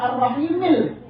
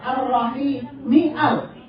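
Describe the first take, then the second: First: The 'a' of 'al' is dropped and linked. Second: The 'a' of 'al' is pronounced separately. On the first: The speaker calls it wrong. "tidak ar-rahimil" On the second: The speaker calls it right. "tapi tetap ar-rahimial"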